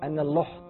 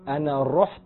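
First: The verb starts with an L sound. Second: The verb starts with a trilled R sound. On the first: The speaker calls it wrong. "مش عارف يعمل ارتعاد اللي هي الصفة" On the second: The speaker calls it right. "بدل ما يقول انا رحت"

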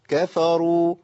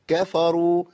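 No difference in how they are said.

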